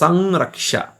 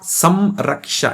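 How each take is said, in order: First: The vowel is nasalized without the lips closing. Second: The lips close for a full m sound. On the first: The speaker calls it right. "it's Sanraksha" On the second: The speaker calls it wrong. "It's not Samraksha"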